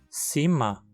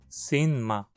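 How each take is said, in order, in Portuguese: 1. O n final do verbo vira som de m. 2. O verbo mantém o som de n antes de ma. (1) "Dizemos cima" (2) "e não cinma"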